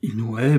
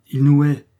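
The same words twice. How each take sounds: First: Questioning repeat, rising on hait; incredulous echo. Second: HAIT hit loud and firm; emphatic accusation. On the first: Father repeating his daughter's accusation, incredulous. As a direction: echo it in disbelief, less forcefully. Father echoes her in disbelief. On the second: Daughter warning her father about the son, emphatic. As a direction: declare it forcefully, louder on hait. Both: A narrator's reading.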